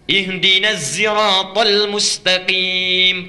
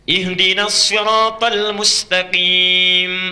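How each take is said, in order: First: Sirat begins with a zai sound. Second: Sirat begins with an emphatic sad sound.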